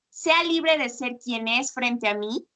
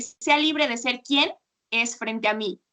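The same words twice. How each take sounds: First: Quién said with a rise, like a question; questioning tune. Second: Quien unstressed, falling statement tune; plain statement. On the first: Teacher shows the wrong stressed quién that sounds like a question. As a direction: read "sea libre de ser quien es frente a mí" as if asking. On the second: Teacher shows the correct unstressed quien. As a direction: say "sea libre de ser quien es frente a mí" as a flat statement. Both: Shown as a demonstration. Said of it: "Ese acento es importante porque es diferente decir".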